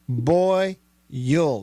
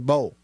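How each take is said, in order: First: The word is said as two syllables. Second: The word is said as one syllable. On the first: "That's two syllables" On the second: "I know some people that say bowl"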